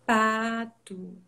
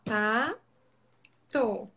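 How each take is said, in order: First: PATO stretched smoothly in one piece; slow, connected word. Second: PATO cut in two, pa... to; syllable by syllable. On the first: Therapist showing parents the right way, "pato" prolonged and joined. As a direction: draw out "pato" without breaking between syllables. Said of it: "eu vou prolongar a palavra". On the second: Therapist showing what to avoid, "pato" split into separate syllables. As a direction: chop "pato" with a long gap between syllables. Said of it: "Silabado, eu vou cortar". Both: Shown as a demonstration.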